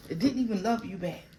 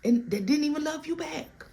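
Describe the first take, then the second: First: Said in the usual way. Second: Emphatic high. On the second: Acted.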